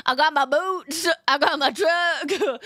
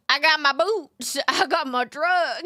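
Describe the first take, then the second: First: Lightly put-on Southern drawl, slow; mock Southern country. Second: A light hammed-up Southern accent; mock Southern country. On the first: Streamer jokes about being country, in a mild mock Southern accent. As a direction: swagger through it in a hammed-up Southern accent. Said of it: "that deep southern country". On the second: Streamer repeats her country bit, in a mild mock Southern accent. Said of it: "cringe Southerner accent".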